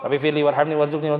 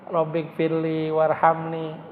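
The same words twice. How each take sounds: First: Fast, careless rattled-off prayer; mock someone hurrying through it; quick, hurried recitation; rushed prayer. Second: Slow, deeply felt recitation; unhurried, earnest prayer; slow heartfelt prayer. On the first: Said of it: "Kan buru-buru doang". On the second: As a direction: savor each word as if near tears. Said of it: "sampai netes air mata?". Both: Shown as a demonstration.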